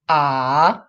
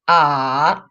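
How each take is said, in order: First: The pitch dips down, then rises. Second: The same.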